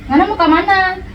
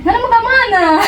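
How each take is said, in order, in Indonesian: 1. Diucapkan dengan logat Kotamobagu yang datar. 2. Diucapkan dengan logat Manado yang mendayu. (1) "Kalau di Kota Baru kan cuma biasa aja" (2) "Kalau di Manado tuh kayak, woi"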